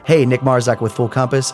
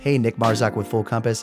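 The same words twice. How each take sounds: First: The voice sounds more colored and punchy. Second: The voice sounds plainer with less punch. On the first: "So if I flip this on, you could absolutely hear the difference"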